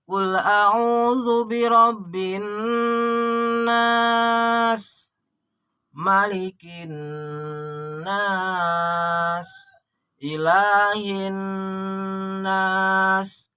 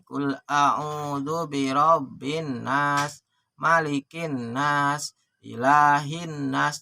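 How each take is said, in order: First: The nasal sounds are held long and melodious. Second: The nasal sounds are cut short, not held. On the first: The speaker calls it right. "Harus ditahan" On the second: The speaker calls it wrong. "Jadi jangan begini"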